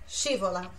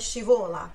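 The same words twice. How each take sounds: First: The stress is on the first syllable. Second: The stress is not on the first syllable. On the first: The speaker calls it right. "Sílaba tônica no chi" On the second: The speaker calls it wrong. "não é scivola"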